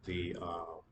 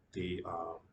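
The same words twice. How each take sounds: The two takes are said the same way.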